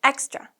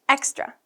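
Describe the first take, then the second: The two takes are said the same way.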